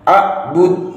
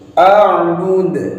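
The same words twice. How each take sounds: First: The final d ends flat with no bounce. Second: The final d ends with an audible bounce. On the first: The speaker calls it wrong. "nggak boleh" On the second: The speaker calls it right. "harus ada pantulannya pada saat melafalkan huruf dal"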